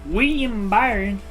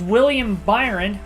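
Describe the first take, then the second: First: The L sounds in William are dropped. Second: The L sounds in William are clearly pronounced.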